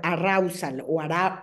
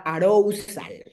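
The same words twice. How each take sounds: First: Arousal stumbled over, trailing into a broken ara-; fumbled arousal. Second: Arousal said slowly in English, ending clean; careful arousal. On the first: Speaker fumbling the English word arousal mid-lecture. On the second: Speaker finally getting the English word arousal right, slowly. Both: Shown as a demonstration.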